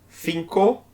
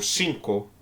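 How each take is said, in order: First: It begins with an interdental th sound. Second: It begins with a plain s sound. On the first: This is how people from Madrid say it. "madrilenho vai pronunciar cinco" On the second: This is how people in the other countries say it. "os demais países ... vão pronunciar"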